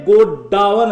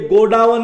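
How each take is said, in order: First: "गोडाउन" said slowly as go-DAA-wan, correcting the misreading; सुधारा हुआ उच्चारण. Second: Said in the usual way. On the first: Shown as a demonstration. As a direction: stretch "गोडाउन" into three parts, go-daa-wan. ("गोडाउन" को धीरे से गो-डा-वन बोलते हुए) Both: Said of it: "ये गोडाउन नहीं".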